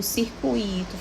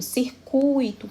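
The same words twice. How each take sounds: First: "circuito" said cir-cu-I-to, U and I split; wrong stress on I. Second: "circuito" slow, long strong U in cir-CUI-to; stress on U. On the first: Teacher shows class the mistake, "circuito" stressed on the I. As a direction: break the diphthong in "circuito", leaning on the I. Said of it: "não está certo". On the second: Teacher models correct word for class, "circuito" stressed on CU. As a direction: stretch the U of "circuito", I gliding after it. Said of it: "especialmente no u". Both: Shown as a demonstration.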